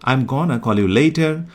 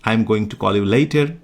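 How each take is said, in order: First: The words 'going to' are reduced to 'gonna'. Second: The words 'going to' are said in full. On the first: "গোয়িং টুটাকে replace করে দাও এবার গনাতে"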